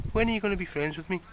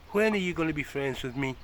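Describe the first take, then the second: First: High, quick pet-talk plea; higher, faster pleading. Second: Said in the usual way. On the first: Real, not acted. Owner pleads with cat Baron, higher and fast. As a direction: rush it up high, coaxing.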